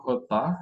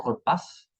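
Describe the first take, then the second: First: "repas" ending on an open "pa", S silent; silent final S. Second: "repas" with a hissed S at the end; sounded final S. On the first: French teacher models the right form, "repas" with silent S. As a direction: say "repas" as ruh-PA, no S. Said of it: "no se pronuncian la S". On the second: Teacher shows learners the mistake, "repas" with final S sounded. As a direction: say "repas" as ruh-PASS. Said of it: "y no repas". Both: Shown as a demonstration.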